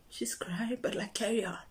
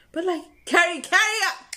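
First: Whispery note to self; hushed inner aside. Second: High, loud, insistent repeat; urgent self-urging. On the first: Distracted singer telling herself to continue, hushed. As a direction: murmur it under the breath, as a private thought. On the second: Distracted singer urging herself to continue, loud and high. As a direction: push it out high and loud, pressing yourself onward. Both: Retold or imitated.

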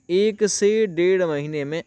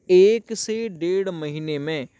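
The two takes are said the same way.

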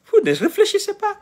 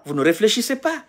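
First: High, laughing in disbelief; laughing at how foolish they are; exasperated laugh. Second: Said in the usual way. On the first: Real, not acted. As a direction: repeat it with a scornful laugh, much higher.

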